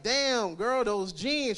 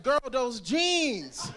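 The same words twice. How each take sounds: First: Flirty compliment. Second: Slow flirty repeat. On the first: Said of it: "I be like". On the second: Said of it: "I'm like". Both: Retold or imitated.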